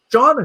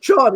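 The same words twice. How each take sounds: First: Bright questioning call of the name "Sean?" with a high rise. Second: Said in the usual way. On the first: Retold or imitated. Disney greeter calling Sean's name at the airport, questioning rise. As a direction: call out "Sean?" like a greeter searching the arrivals crowd.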